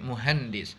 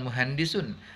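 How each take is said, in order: First: The word ends abruptly on the final s. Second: The word ends with a full -un ending. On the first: This is the everyday spoken form. "secara sukun, bukan muhandisun tapi muhandis" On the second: This is the full form, fine while studying. "bukan muhandisun"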